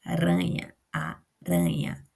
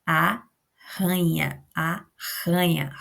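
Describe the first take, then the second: First: "aranha" said slowly with a light tapped r; single tapped r. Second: "arranha" very slow with a strong guttural rr. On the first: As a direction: contrast word with a tap. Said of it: "esse é um R só". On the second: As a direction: stretch "arranha", rasping the rr from the throat. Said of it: "a gente tem R R". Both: Shown as a demonstration.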